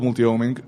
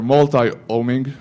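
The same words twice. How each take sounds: First: Multi-homing with "multi" said MUL-tee; MUL-tee pronunciation. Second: Multi-homing with "multi" ending like "tie"; MUL-tie pronunciation. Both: Shown as a demonstration. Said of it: "I don't know how you guys pronounce it".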